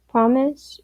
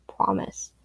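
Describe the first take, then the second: First: A hopeful asking Promise? with a clear rise; hopeful question. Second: Promise. whispered softly with a falling end. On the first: The child asking Papyrus for a promise, hopeful rising Promise?. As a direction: ask Promise? up-turned and hopeful. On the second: Papyrus hushing the crying child, a whispered Promise. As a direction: breathe the word Promise. as a hushed vow. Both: A narrator's reading.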